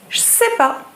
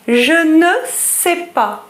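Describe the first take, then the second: First: The ne is dropped from the phrase. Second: The phrase is said in full with the ne. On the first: "becomes je sais pas" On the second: "Je ne sais pas becomes je sais pas"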